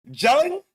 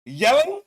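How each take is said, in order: First: Yelling? said with a hard ch sound, chelling; mimicking accent. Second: Said in the usual way. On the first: Host echoing the interviewee's accent: Yelling? as chelling. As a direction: start Yelling? with a ch like the clip's accent. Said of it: "His accent is strong as fuck".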